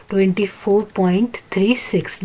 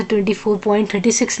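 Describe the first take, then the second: First: "twenty four point three six" with each digit after the point read separately, "three" then "six". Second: "twenty four point thirty six" with the digits after the point read as the number thirty-six; wrong reading as a whole number. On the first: Teacher shows students the correct way to read decimals. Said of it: "उसको हम लोग पढ़ेंगे". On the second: Teacher demonstrates the wrong way to read decimals to students. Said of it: "ऐसे ... नहीं पढ़ेंगे". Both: Shown as a demonstration.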